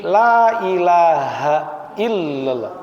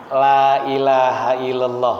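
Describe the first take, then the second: First: Illallah said slowly with the doubled l pressed and bounced; correct tasydid. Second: Illallah said with a single short l, no stress on the doubled letter; without tasydid. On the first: Preacher showing the correct talqin reading, tasydid pressed. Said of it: "Bacanya gitu". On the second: Preacher repeating the wrong talqin, tasydid dropped. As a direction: skip the tasydid in illallah, slowly. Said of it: "Kenapa salah? Tasdidnya nggak ada". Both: Shown as a demonstration.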